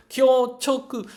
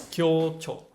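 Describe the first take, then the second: First: "Kyo-choku" drawn out slowly, loud and high, with the full "choku" ending; wrong reading. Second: "Kyo-cho" ending short and clean on "cho", with no "ku"; corrected reading. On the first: Learner sounding out the wrong reading "Kyo-choku" while she searches for the right one. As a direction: stretch "Kyo-choku" slowly, stressing the final "choku". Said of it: "Not choku". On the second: Learner settling on the right reading "Kyo-cho" after dropping "choku". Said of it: "but cho". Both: Shown as a demonstration.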